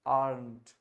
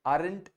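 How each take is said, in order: First: Just brush the r in aren't; light r. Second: Aren't broken into "a-rent" with a full r and an extra vowel; wrong pronunciation. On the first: Teacher modelling for students: aren't with a gentle r. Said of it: "हल्का सा र पे". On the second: Teacher warning the class: aren't said as "a-rent". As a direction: overpronounce aren't as two syllables. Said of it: "aren't नहीं है". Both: Shown as a demonstration.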